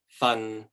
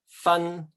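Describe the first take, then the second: First: The syllable carries Cantonese tone six. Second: The syllable carries Cantonese tone one. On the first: It means a portion. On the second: It means to separate.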